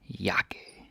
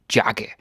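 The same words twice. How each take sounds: First: Jakke said with J as English Y, "yakke"; Danish J. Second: Jakke with a hard English J, as in jacket; mispronounced J. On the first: Teacher showing the Danish J, jakke begun like Y. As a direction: softly model jakke starting with a Y sound. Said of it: "Danish J is pronounced like an English Y". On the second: Teacher showing what not to say, jakke with English J. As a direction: start jakke with an English "j" sound. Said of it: "So you don't say jakke". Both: Shown as a demonstration.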